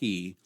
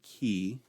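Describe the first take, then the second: First: It begins with a slight throaty rasp. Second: It begins with a hard K sound. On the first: "makes a ch sound, a slight guttural" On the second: "with a harder K sound"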